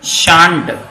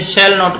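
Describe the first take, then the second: First: The words merge into one short syllable. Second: The not is said in full as a word. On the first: This form is used in everyday speech. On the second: This form suits formal written work.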